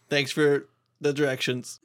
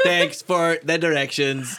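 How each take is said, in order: First: It is said in a normal voice. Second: It is said in a robot Canadian voice.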